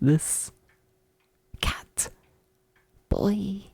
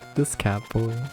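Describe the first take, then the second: First: The phrase is said at a slow pace. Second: The phrase is said at a quick pace.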